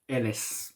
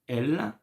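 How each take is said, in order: First: The word ends with an audible s sound. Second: The word ends without any s sound. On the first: The speaker calls it wrong. "It's not ls" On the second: The speaker calls it right. "No, it's elle"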